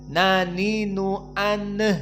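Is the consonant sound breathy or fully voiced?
breathy. The consonant is said with air escaping. The speaker calls it wrong. "tidak boleh"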